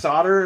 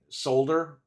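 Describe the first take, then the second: First: It is said with an American pronunciation. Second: It is said with a British pronunciation.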